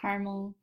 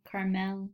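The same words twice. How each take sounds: First: "caramel" squeezed to CAR-mul; two-syllable caramel. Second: "caramel" as car-MEL, clear E at the end; full-ending caramel. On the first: Showing both ways to say it, "caramel" as CAR-mul. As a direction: say "caramel" as CAR-mul, middle vowel dropped. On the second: Showing both ways to say it, "caramel" as car-MEL. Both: Shown as a demonstration. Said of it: "I say it both ways".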